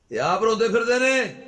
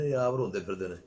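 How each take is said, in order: First: High, very loud preacher's cry; soaring, loud repeat for emphasis; emphatic shout. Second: Said in the usual way. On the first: Real, not acted. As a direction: hammer the point home at full volume.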